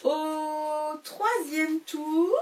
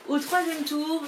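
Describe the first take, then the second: First: Very slow, stretched teasing announcement; mock-dramatic slow opener; drawn-out announcement. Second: Said in the usual way. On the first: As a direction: draw out au troisième tour like a big reveal. Dramatic chapter announcement, then laughs.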